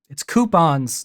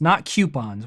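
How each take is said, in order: First: The word begins with a plain 'coo' sound. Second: The word begins with a 'kyoo' sound. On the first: The speaker calls it right. "It would be a coup sound" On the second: The speaker calls it wrong. "Where do people get the Q sound?"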